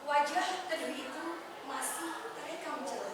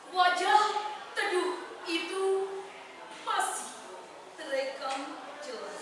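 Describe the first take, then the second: First: It is read in an ordinary everyday voice. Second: It is read in a full, deep-breathed voice. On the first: The speaker calls it wrong. "Itu pakai suara basa" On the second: The speaker calls it right. "kita ambil nafasnya dari diafragma, nafas diafragma"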